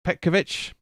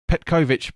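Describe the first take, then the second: First: Petkovic said as PET-kuh-vich; trying a pronunciation. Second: Petkovic said as pet-KOH-vich; trying a pronunciation. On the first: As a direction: say Petkovic with a weak "kuh" in the middle. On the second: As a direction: say Petkovic with a full "koh" in the middle. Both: Shown as a demonstration. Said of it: "I think it's Petkovic".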